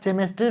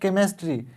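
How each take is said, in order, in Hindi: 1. शब्द की शुरुआत 'ch' ध्वनि से होती है। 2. शब्द की शुरुआत 'k' ध्वनि से होती है। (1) "यहाँ केमिस्ट्री नहीं पढ़ेंगे" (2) "इसको पढ़ेंगे केमिस्ट्री"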